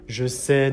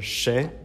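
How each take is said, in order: First: The pronoun is said in full. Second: The pronoun is shortened into the verb.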